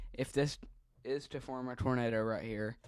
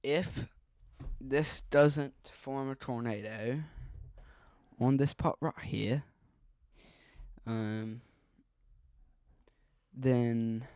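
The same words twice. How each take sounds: First: Said in the usual way. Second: Put-on louder, light Australian accent. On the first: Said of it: "I don't know why I keep talking". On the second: Warning viewers of a possible tornado, light Australian accent. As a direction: slip into a slightly put-on Australian accent, loudly. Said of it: "I keep talking in an Australian accent".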